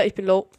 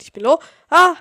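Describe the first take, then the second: First: Said in the usual way. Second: Alarmed shout. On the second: Real, not acted. Repeats low health, alarmed.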